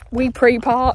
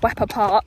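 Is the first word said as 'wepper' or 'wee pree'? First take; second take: wee pree; wepper. First: The first word sounds like 'wee pree', split apart. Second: The first word sounds like 'wepper', two syllables. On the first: The speaker calls it wrong. "once somebody called it Wee Pree Park" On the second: The speaker calls it right. "there's another place called Wepper Park"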